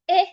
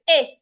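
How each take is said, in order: First: The pitch falls on the vowel. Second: The pitch rises on the vowel. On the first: The speaker calls it wrong. "when you use a falling tone" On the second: The speaker calls it right. "if I use my rising tone"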